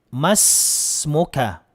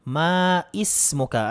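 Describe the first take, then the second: First: The 'i' vowel after 'ma' is dropped. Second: The 'i' vowel after 'ma' is pronounced. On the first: The speaker calls it right. "Ang tama po ay ma masmuka kung lalaki" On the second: The speaker calls it wrong. "Maismuka ay mali po"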